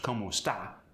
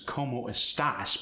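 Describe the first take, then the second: First: The final S sound is left off. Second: The final S sound is clearly pronounced.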